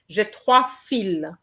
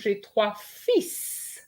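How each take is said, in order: First: The last word ends without an s sound. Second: The last word ends with a clear s sound. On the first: I have three threads. "So that will be fil" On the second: I have three sons. "Trois fils would mean I have three sons"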